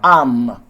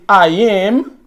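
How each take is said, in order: First: One word, the verb's vowel dropped. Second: Two separate words, the verb said in full. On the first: The speaker calls it right. "I say" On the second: The speaker calls it wrong. "I don't say I am"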